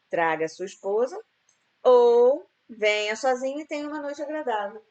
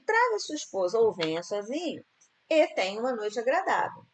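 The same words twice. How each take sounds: First: There is a pause after esposa. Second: There is a pause after sozinho. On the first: Only coming alone brings a pleasant evening. "se você é, for sozinho, você vai ter uma noite agradável" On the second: The evening will be pleasant either way. "Eu preferiria, né, botar uma vírgula aqui"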